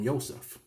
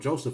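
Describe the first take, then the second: First: The name begins with a Y sound. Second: The name begins with a J sound. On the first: The speaker calls it right. "just change the J to a Y" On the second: The speaker calls it wrong. "instead of calling myself Joseph"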